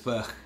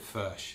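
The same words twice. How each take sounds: First: The final sound is a harsh throaty rasp. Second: The final sound is softened, without a rasp. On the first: This is how the makers say the name. "Furch described their brand as Furch" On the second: This is the speaker's own way of saying the name. "So I call it Furch. I soften it"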